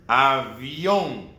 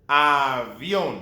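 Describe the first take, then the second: Both takes have the same delivery.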